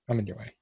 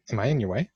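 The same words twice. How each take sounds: First: "I'm in your way." stated, falling and softer; flat realisation. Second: "am I in your way?" asked with a rising end; puzzled question. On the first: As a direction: settle it plainly: "I'm in your way". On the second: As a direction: ask "in your way" unsure, lifting at the end. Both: Shown as a demonstration.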